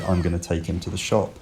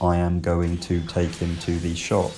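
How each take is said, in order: First: The small words are collapsed into reduced forms. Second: The small words are said in full forms. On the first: The speaker calls it right. "We say" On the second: The speaker calls it wrong. "We don't say, for example"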